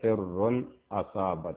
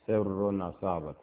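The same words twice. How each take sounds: First: The glottal stop before asabat is clearly pronounced. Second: The glottal stop is dropped and the words merge. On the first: "In riwayat Hafs, you say" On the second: "if you are reading with riwayat Warsh ... You say what?"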